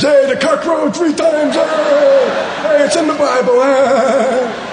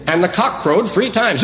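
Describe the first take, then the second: First: Put-on high-pitched childish taunting shout; giggly sixth-grader. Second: Said in the usual way. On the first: Sixth-grader excusing a dirty word as Bible talk, high gleeful shout. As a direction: crow it out like a naughty schoolkid, very high. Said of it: "the ones you giggled at in sixth grade".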